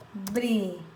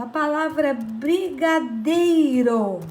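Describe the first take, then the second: First: "Brigadeiro" split into bri-ga-dei-ro, quieter; syllables split. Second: Said in the usual way. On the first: Shown as a demonstration. Teacher separating the word for children, quiet and split. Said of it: "Vejam só". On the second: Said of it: "Por exemplo".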